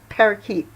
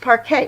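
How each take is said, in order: First: It is said like the bird name, parakeet. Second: It is said as two syllables, par-kay. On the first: The speaker calls it wrong. "that's not how you pronounce it. It's not, it's not parakeet" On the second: The speaker calls it right. "It's it's parquet, right?"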